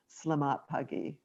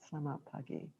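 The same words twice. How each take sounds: First: Said in the usual way. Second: Much softer, hushed greeting; quiet presence. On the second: Shown as a demonstration. Greeting a neighbour gently on the morning walk, hushed. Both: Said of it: "a quiet presence about".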